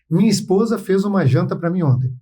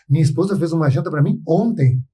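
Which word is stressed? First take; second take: none; ontem. First: It is said flatly with no word stressed. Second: The word ontem is stressed. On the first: It simply reports a fact. "No primeiro momento ela está uma frase fria" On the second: The particular day mattered, perhaps something more happened. "Pô, ontem é importante"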